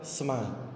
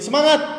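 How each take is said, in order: First: The word is said slowly. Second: The word is said loudly. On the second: "kita main volume tinggi"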